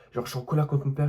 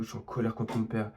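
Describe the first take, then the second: First: Higher and louder, stress on colère; repeating it with exasperation, colère stressed; emphatic restatement. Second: Said in the usual way. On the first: Real, not acted. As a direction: punch colère hard the second time.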